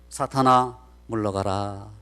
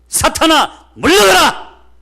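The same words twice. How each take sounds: First: It is said in a weak, faint voice. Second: It is said in a strong, loud voice.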